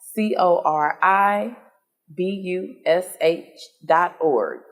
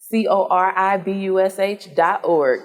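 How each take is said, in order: First: It is said slowly. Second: It is said fast.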